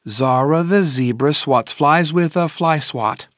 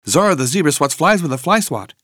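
First: The sentence is said at a fast pace. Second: The sentence is said at a very fast pace. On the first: "plus vite!" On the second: "Encore plus vite!"

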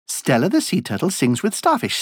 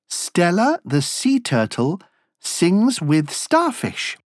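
First: It is said at a very fast pace. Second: It is said at a slow, normal pace.

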